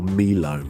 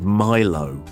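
First: The word is said the Nigerian way. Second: The word is said the usual non-Nigerian way.

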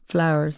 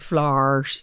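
First: It is said in a standard, non-northern accent. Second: It is said in a northern regional accent.

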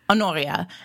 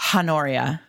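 First: The initial H is silent. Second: The initial H is pronounced. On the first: The speaker calls it right. "that's how I've always pronounced it in my head" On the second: The speaker calls it wrong. "I certainly don't like Honoria"

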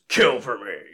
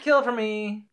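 First: It is said in Freddy's menacing voice. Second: It is said in a mild, polite voice.

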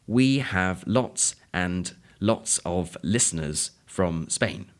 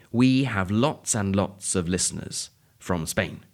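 First: Each word is said separately and the 'd' in 'and' is pronounced. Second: Each word runs into the next and the 'd' in 'and' is dropped. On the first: "If you were reading that sentence out loud, you might say" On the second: "the word lots flows directly onto and the D of the and isn't pronounced. I'll say it again"

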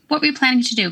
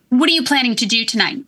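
First: It is said in a neutral, plain tone. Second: It is said in an irritated, harsh tone.

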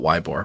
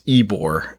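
First: The name begins with a 'why' sound. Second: The name begins with an 'ee' sound. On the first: This is a jokey pronunciation the speaker prefers. "I refuse to call it anything but Weibor" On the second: This is the confirmed local pronunciation. "confirmed that the pronunciation is Ebor"

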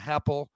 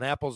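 First: The word starts with an added h sound. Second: The word starts with a plain vowel.

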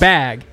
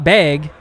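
First: The vowel is said with a standard accent. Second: The vowel is said with a Montana accent. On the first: The speaker calls it right. "it's bag" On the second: The speaker calls it wrong. "bag is not bag"

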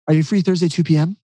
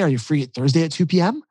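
First: The voice falls at the end like a statement. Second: The voice rises at the end like a question.

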